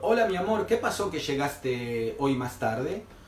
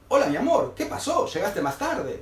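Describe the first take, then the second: First: It sounds like a neutral, simple question. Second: It sounds suspicious, almost like an accusation.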